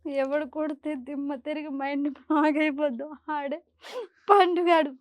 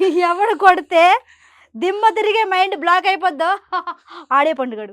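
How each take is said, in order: First: It is said while crying. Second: It is said while laughing loudly.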